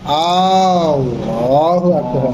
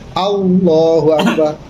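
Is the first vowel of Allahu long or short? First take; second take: long; short. First: The opening vowel of Allahu is drawn out long. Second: The opening vowel of Allahu is kept short. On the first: The speaker calls it wrong. "tidak memanjangkan hamzah pada lafzul jalalah. Jadi enggak" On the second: The speaker calls it right. "Jadi harus"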